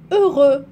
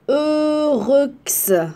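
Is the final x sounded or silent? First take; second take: silent; sounded. First: The final x is silent. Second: The final x is pronounced as a sound. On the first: The speaker calls it right. "la lettre X ne se prononce pas" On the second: The speaker calls it wrong. "Non plus"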